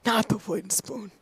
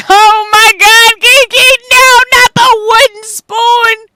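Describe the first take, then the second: First: Soft, subdued mock horror; hushed mock dread. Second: High, loud, drawn-out mock scream; mock-horrified wail. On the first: Repeating the wooden spoon to the chat, softly in mock dread. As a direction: drop it to a small, quiet lament. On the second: Joking with the chat about granny's discipline, high mock-horrified wail. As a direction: wail it at full volume in exaggerated dread. Mock horror at wooden spoon.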